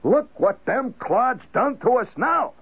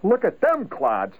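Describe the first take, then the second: First: Slow, much higher griping at nobody in particular; abstract bugged grumble. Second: Slow, higher jeer at the people nearby; bugged holler. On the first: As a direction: gripe at the newspaper, not at anyone. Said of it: "that is the abstract bug". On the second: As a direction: sneer at those around you. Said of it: "if somebody hollers". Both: Shown as a demonstration.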